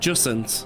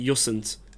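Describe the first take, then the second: First: The name begins with a J sound. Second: The name begins with a Y sound. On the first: "Is that how you pronounce it?" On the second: "is the J like a like a weird kind of like Y"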